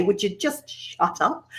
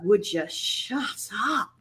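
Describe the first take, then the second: First: Soft, slow scolding; muttering to herself. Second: Soft, slow muttered shut up; snapping at herself. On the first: Presenter quoting her self-talk, soft and slow. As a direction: hush yourself, half amused. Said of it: "I still like to say that to myself". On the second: Presenter retelling telling herself off, soft and slow. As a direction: scold yourself under your breath. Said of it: "I was just like". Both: Retold or imitated.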